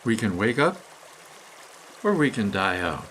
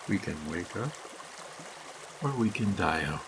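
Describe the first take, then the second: First: Said in the usual way. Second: Softer and lower, a quiet echo; hushed echo. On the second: Acted. Narrator echoes the choice to listeners, hushed and low. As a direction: let it sink in, barely above a murmur.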